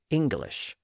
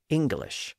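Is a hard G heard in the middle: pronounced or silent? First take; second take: pronounced; pronounced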